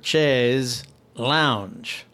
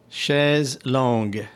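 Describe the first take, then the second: First: The second word sounds like English 'lounge'. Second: The second word sounds like 'long' without the 'ow'. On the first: The speaker calls it wrong. "In the American version of it, it becomes chaise or chaise lounge" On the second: The speaker calls it right. "Clearly enunciate how I should refer to them"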